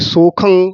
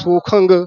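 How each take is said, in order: First: The word ends in a plain nasal. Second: The word ends with an added 'g' sound. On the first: The speaker calls it right. "ਹੋੜਾ ਪੂਰਾ ਬੋਲਣਾ ਹੈ" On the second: The speaker calls it wrong. "ਗੱਗਾ ਨਾ ਲੱਗ ਜੇ"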